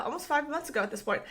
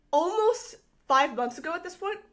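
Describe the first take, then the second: First: "almost five months ago at this point" as a quicker, settled statement; confirming. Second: Rising questioning tone on "almost five months ago at this point?". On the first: Creator confirming how old her comment is, confirming. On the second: Creator working out how old her comment is, questioning. Checking a date aloud, then confirming. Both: Real, not acted.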